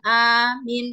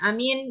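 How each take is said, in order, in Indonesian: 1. Hanya vokal pertama yang dipanjangkan. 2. Kedua vokal diucapkan pendek. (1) "hanya A-nya saja yang kita panjangkan" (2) "sama-sama pendek, tidak ada panjangnya sama sekali"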